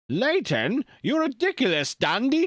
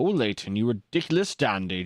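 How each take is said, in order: First: An exaggerated cartoon mad-scientist villain voice. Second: A moustached villain voice with a British-sounding accent. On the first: "Can I do a Doofenshmirtz voice?" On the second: "moustached villains in like British media"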